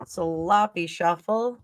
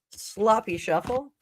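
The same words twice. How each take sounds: First: Slowly savoring each word; slow drawn-out repeat. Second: Said in the usual way. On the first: Shown as a demonstration. Reader repeating the card shuffle's name, slowly drawn out. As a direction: stretch out sloppy shuffle, lingering on shuffle.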